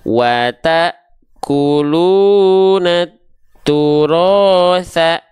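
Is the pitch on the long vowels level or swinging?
swinging. The long vowels swing up and down in pitch. "Kalau masih belum konsisten, ayun"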